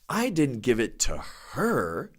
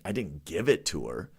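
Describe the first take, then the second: First: The word her carries the strongest stress. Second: The word give carries the strongest stress. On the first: The item went to someone else, not her. "Now let's emphasize a different part of the sentence" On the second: The item was handed over some other way, not given. "I loaned it to her, or I sold it to her"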